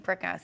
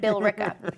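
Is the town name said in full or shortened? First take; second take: shortened; full. First: The name is squeezed into two short syllables. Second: The name is said with all its syllables. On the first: The speaker calls it wrong. "I say Bricka" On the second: The speaker calls it right. "I'll pronounce it. I don't want to be disrespectful"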